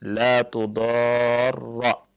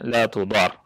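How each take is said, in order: First: The doubled r ends with an a vowel. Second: The r ends with no vowel after it. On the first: It is a prohibition: do not. "bi fathir ra al-musyaddadah" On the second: It is a prohibition: must not harm. "dengan mensukunkan huruf ra"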